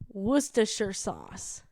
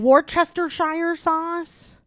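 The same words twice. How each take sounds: First: Worcestershire is said with fewer syllables. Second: Worcestershire is said with extra syllables. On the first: The speaker calls it right. "we found it, and it's" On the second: The speaker calls it wrong. "I was adding so many extra syllables"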